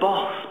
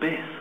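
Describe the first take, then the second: First: The word has the vowel of 'boss'. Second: The word has the vowel of 'biss'. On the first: "they pronounce it boss" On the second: "or even biss"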